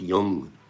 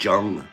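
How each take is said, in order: First: The name begins with a Y sound. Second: The name begins with a J sound. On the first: The speaker calls it right. "pronounced Jung" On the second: The speaker calls it wrong. "I didn't know how to pronounce it. I always said Jung"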